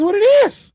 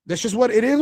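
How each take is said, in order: First: High emphatic. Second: Said in the usual way. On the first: Real, not acted. Repeating the catchphrase.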